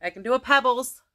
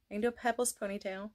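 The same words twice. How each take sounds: First: Said in the usual way. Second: Soft, fast cartoon-kid voice; quick little-girl Pebbles voice. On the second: Shown as a demonstration. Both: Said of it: "like I said".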